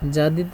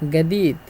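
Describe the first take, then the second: First: It begins with a soft j sound. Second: It begins with a hard g sound.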